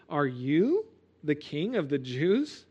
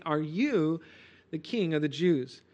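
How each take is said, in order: First: Slow, incredulous question with YOU stressed; shock and surprise. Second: Said in the usual way. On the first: Retold or imitated. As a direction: ask it as if you can't believe your eyes. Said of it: "Pilate's question was one of shock and, and surprise". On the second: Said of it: "he asks Jesus very plainly".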